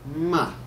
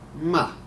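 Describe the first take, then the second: No difference in how they are said.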